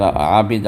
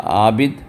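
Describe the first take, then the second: First: عابد begun with throaty ain; squeezed ain from the throat; ain onset. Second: عابد begun with a glottal hamza; plain glottal start; wrong hamza version; hamza onset. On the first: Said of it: "اس کو عین سے اگر". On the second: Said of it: "اور حمزے سے اگر آپ کہیں گے". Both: Shown as a demonstration.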